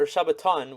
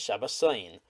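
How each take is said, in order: First: The middle consonant sounds like t. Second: The middle consonant sounds like s. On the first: "or Shabbaton" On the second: "sometimes pronounced and said as Shabbasoin"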